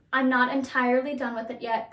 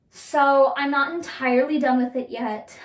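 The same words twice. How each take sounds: First: Said in the usual way. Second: Voice crack. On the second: Real, not acted. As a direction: voice cracks mid-sentence. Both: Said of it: "You hear my voice crack?".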